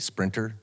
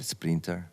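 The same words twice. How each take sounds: First: The word is said with an English accent. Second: The word is said with a Spanish accent.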